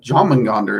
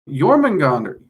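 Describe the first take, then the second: First: The name begins with a J sound. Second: The name begins with a Y sound. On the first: The speaker calls it wrong. "is what I was trying to say" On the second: The speaker calls it right. "how long it took me to be able to pronounce that as well as I do"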